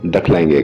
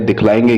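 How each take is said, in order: First: The first syllable has an 'a' vowel, 'dakh'. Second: The first syllable has an 'i' vowel, 'dikh'. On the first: "दखलाएंगे जो है वो एक Bihari accent है" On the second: "बजाय दिखलाएंगे"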